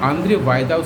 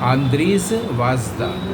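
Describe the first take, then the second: First: The surname is said with a 'y' sound. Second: The surname is read with a 'j' sound. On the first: This is how the name is actually pronounced. "उसका उच्चारण है" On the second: This is a literal reading of the spelling. "उसका स्पेलिंग है"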